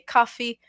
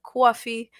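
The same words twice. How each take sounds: First: It is said in a plain, standard accent. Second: It is said in a New York accent. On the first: The speaker calls it right. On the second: The speaker calls it wrong.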